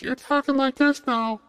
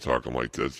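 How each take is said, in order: First: Very high, loud falsetto squeak; surgically altered voice. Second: Said in the usual way. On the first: Shown as a demonstration. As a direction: jump way up into a mock surgically feminized voice. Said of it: "instead of talking like this". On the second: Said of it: "a surgery to the voice box".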